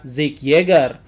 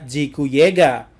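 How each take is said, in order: First: The name is said with English pronunciation. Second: The name is said with Japanese pronunciation. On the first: "dalam bahasa Inggris, nama Zeke itu dibaca" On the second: "dalam bahasa Jepang itu dibaca"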